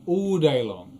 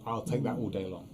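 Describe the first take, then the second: First: All day long louder and higher; emphatic. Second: Said in the usual way. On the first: Real, not acted.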